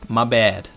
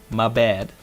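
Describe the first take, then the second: No difference in how they are said.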